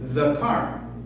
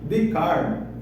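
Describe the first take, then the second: First: 'The' starts with a th sound. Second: 'The' starts with a plain d sound. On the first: The speaker calls it right. "Aí eu falo the car. Já é uma diferença" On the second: The speaker calls it wrong. "D-car, e achava que estava bom assim"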